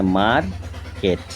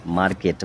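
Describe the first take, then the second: First: মার্কেট with a gap, মার, কেট; split in two syllables. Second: Said in the usual way. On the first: Shown as a demonstration. Teacher saying a word in two parts, মার্কেট as মার-কেট. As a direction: pause inside মার্কেট after মার. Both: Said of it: "দুবার উচ্চারণ হচ্ছে".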